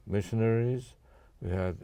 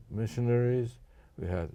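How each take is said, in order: Both takes have the same delivery.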